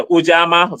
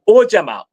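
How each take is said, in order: First: Ujama stressed on a long open JAH; middle-stressed Ujama, broad ah; alternative pronunciation. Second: Ujama stressed on the opening OO; front-stressed Ujama, short middle; own pronunciation. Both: Shown as a demonstration. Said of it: "Some say Ujama".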